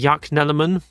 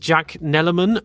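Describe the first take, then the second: First: The name is said the Danish way. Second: The name is said the English way. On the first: "because it's Danish" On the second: "my first instinct is"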